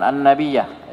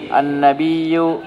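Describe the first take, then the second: First: An-Nabiyyah ending in -yah; corrected reading. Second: An-Nabiyyu read slowly, ending in -yu; drawn-out An-Nabiyyu with the wrong ending; mistaken reading. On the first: Self-correcting to the class, says An-Nabiyyah. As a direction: fix it to An-Nabiyyah. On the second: Reading aloud to the class, slips to An-Nabiyyu. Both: Real, not acted. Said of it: "Ah, afwan, afwan".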